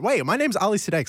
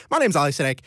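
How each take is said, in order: First: Quick, higher catch-up to state his own name; hurried fix. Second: Said in the usual way. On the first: Real, not acted. Host realises he forgot his name on air: hurried high fix. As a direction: rush the name in as a correction. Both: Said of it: "Sorry, that I should have".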